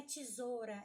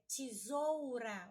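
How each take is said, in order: First: Quick "tesoura" said as "tisôra"; casual "tesoura", reduced to "tisôra"; u swallowed. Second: Slow "tesoura" said as "tisoura", u sounded; drawn-out "tesoura" with clear ou, "tisoura"; full diphthong. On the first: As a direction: drop the u in "tesoura" and turn e to i. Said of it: "não é tesoura". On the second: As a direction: stretch the "ou" in "tesoura", first vowel as i. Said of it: "é tesoura". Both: Shown as a demonstration.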